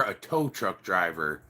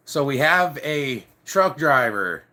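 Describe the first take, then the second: First: "tow" stressed, the phrase dropped lower and softer. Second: Said in the usual way. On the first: Shown as a demonstration. Fixing the job title for viewers, stress on tow. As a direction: lean on "tow" quietly. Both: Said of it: "No, not a truck driver".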